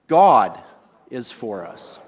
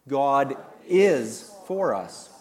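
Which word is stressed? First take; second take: God; is. First: The stress is on the word God. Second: The stress is on the word is.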